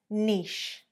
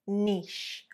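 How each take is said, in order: The two takes are said the same way.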